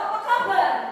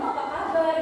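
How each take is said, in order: First: It is said loudly on a high pitch. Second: It is said softly at a normal pitch. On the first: This is how people from that region habitually talk. "ngomongnya kenceng" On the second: This is how we usually talk. "Kalau kita kan bisa"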